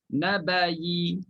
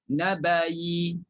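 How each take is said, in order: First: It ends in a y with a faint vowel. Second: It ends in a y with a faint vowel.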